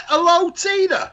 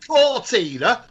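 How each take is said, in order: First: "Hello, Tina" high and drawn out; "Hello" stretched out before "Tina"; defended greeting. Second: "Core Tina" run together like the car name Cortina; "Core Tina" with "Core" in place of "Hello"; mispronunciation example. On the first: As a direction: say "Hello, Tina" slowly, pitched high, in protest. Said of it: "What's the wrong with". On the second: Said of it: "I didn't say". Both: Shown as a demonstration.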